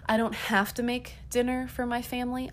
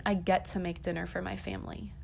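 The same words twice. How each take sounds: First: "have" stressed, whole line pitched higher. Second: "get" stressed, pitch settled back to usual. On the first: Mother rejecting the chore of making dinner, stress on "have". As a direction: lift the line high, leaning on "have". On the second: Mother reframing dinner as a privilege, stress on "get". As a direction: lean on "get" in an everyday pitch. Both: Real, not acted.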